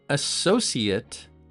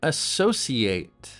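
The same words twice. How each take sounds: First: The last syllable is pronounced like "it". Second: The last syllable is pronounced like "ate". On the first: It is used as a noun. "An associate" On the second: It is used as a verb. "to associate"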